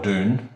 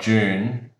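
First: The word is said with an American pronunciation. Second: The word is said with a British pronunciation. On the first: "say in America" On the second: "the English say it differently"

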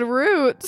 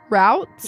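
First: The word is said to rhyme with boots. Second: The word is said not rhyming with boots. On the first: This is the speaker's habitual, possibly regional, way of saying it. The speaker calls it wrong. "I think I've always said roots" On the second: This is the other speaker's way of saying it. The speaker calls it right. "I think that does actually sound more right"

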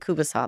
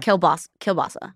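First: The word starts with a 'koo' sound. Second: The word starts with a 'keel' sound. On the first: This is the regional Alberta name. "In Alberta, we say kubasa" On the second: This is the name used elsewhere. "And you guys call it kielbasa?"

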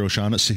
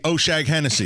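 First: The name is said as three smooth syllables. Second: The name is split into four syllables. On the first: The name is said the usual way. The speaker calls it right. "do you mean Mr" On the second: The name is mangled on purpose for comedy. The speaker calls it wrong.

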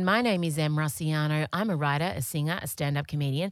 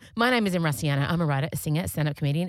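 First: It is said at a slower pace. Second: It is said very fast.

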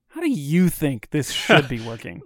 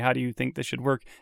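First: It sounds passive-aggressive and combative. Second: It sounds neutral and non-combative.

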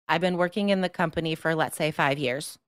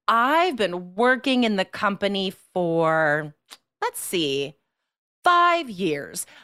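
First: Every word is equally loud with no pauses. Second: Some words are louder, others softer, with pauses. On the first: The speaker calls it wrong. "without sentence stress, without pausing, without rhythm" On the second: The speaker calls it right. "some words are louder, some words are softer and quicker"

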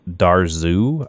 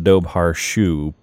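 First: The name is said in an Irish pronunciation. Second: The name is said in an anglicized pronunciation. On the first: "according to the Irish pronunciation" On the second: "I pronounced it the Dobhar Shu"

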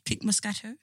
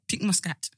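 First: The name ends with three syllables, 'Moscato'. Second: The name ends with two syllables, 'Muscat'.

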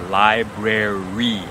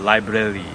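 First: The last syllable starts with an R-like sound. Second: The last syllable starts with an L-like sound. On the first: The speaker calls it right. "try to avoid that temptation and use the R sound at the end" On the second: The speaker calls it wrong. "the tendency is then to use the tongue on the last li"

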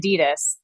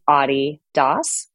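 First: The brand name is said the American way. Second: The brand name is said the European way. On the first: This is how the name is said in Southern California. "when you're from Southern California like me ... And so I say Adidas" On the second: This is how the name is said in Europe. "So it's Adidas when you're in Europe"

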